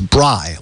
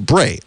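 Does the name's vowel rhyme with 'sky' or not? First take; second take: sky; not sky. First: The vowel rhymes with sky. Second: The vowel does not rhyme with sky. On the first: The speaker calls it right. "Like she's as bright as the sky" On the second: The speaker calls it wrong. "It looks like I pronounced it Bray"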